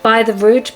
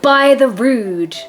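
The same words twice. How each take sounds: First: "By the rood" with a rise on "rood", testing it; "By the rood" asked upward, unsure how it sounds; trying out a pronunciation. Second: "by the rood" slow, drawn out, falling; "by the rood" sounded out slowly, unsure; trying out a pronunciation. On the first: Vlogger to viewers, trying the oath again with a rise. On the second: Vlogger to viewers, unsure of old oath, testing it slowly. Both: Shown as a demonstration. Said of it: "I don't know how it's said".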